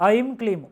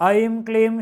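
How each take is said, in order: Both takes have the same delivery.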